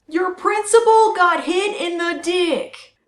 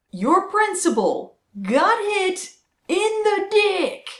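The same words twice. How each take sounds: First: Slow loud jeering; loud gleeful taunt. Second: Loud gleeful taunt. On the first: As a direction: jeer it out slowly. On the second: Triumphant repeat of joke. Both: Acted.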